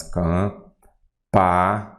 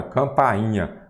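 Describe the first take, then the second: First: "campainha" drawn out in separate syllables. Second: Said in the usual way. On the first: Shown as a demonstration. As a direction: say "campainha" slowly as cam, pa, i, nha. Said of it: "Aí você pega aqui e fala assim". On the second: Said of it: "fala assim".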